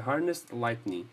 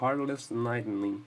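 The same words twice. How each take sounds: First: The first word has no L sound. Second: The first word has an L sound. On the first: The speaker calls it right. "E não tem L na primeira palavra" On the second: The speaker calls it wrong. "Eu costumo falar Heartless Lightning. Tudo errado"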